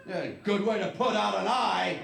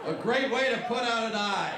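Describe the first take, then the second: First: A hint of a peppy ad voice, louder; mock box slogan. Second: Higher, louder cheery ad-voice; mock ad slogan. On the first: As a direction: read it like cheery packaging copy. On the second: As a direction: sell it like a toy commercial. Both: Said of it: "It said that right on the box".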